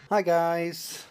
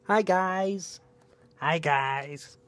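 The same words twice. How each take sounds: First: Said in the usual way. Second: Lightly put-on voice for the pet; a hint of a pet's voice; voicing the pet. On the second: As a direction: say hi as if the dog were speaking. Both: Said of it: "Say hi".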